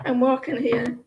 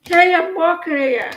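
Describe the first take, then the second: First: Understated New York imitation; Yankee accent. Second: Loud, higher New York street holler; Yankee accent. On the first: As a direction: toss it off in a mock Yankee accent. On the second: Acted. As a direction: shout it like an annoyed New Yorker. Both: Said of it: "Yankee accent".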